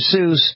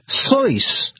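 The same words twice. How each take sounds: First: The name is said with an English pronunciation. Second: The name is said with a German pronunciation. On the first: This is how most people say the name. "They weren't saying it that way. They were saying Dr. Seuss" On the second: This is how the name's owner said it. "He actually pronounced his name Dr. Seuss. Yes, that's right. The German way"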